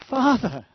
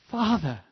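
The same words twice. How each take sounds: First: Louder, higher call to the Father; urgent cry. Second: Rising call. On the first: Believer in trouble crying out to the Father, louder and urgent. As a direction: cry it out, pleading. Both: Pretend. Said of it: "Not, Oh my God".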